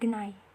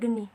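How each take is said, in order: First: The word ends in an 'ai' glide. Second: The word ends in a plain 'ee' vowel. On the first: "dalam bahasa Osing itu di uh, diucapkan sebagai genai" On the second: "contoh kalimatnya itu misalnya geni"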